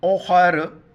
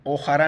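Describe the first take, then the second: First: ओखर stopped cleanly on the r, no final vowel; correct pause form. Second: ओखरा read with a long o and an added final a; the mistaken ओखरा with a trailing vowel; wrong reading. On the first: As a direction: end ओखर on a halted r. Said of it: "वक्फ ओखर". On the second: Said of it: "तो ओखरा नहीं पढ़ेंगे". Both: Shown as a demonstration.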